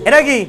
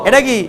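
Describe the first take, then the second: No difference in how they are said.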